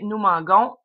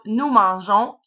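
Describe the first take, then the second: First: The G is said as a hard G sound. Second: The G is said as a soft J sound. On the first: The speaker calls it wrong. "sinon, on obtiendrait nous manguons" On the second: The speaker calls it right. "pour avoir un G doux"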